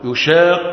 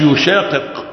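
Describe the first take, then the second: First: The final consonants are merged into one. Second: The final consonants are pronounced separately. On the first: "كالإضغام في يشاق الله" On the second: "ما قالش يشاقق"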